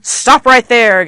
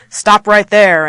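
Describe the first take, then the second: First: Slow, loud, emphatic order; shouted command. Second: Said in the usual way. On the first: Shown as a demonstration. Teacher warning someone walking over a cliff, shouted command. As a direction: punch out each word to stop them. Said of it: "you probably are going to be shouting it at them". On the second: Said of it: "you're not shouting it".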